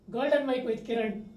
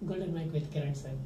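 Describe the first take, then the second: First: It is said very loudly. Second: It is said at normal volume.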